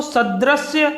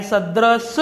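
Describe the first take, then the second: First: सदृश्य said slowly and higher, ending in "shya"; wrong form. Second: सदृश said slowly, ending sharply on "drish"; correct form. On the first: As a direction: drag out सदृश्य with a final श्य sound. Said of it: "न होकर". (गलत रूप सदृश्य, धीमे और ऊँचे सुर में) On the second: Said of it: "यह होता है". (शुद्ध रूप सदृश, अंत में य नहीं) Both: Shown as a demonstration.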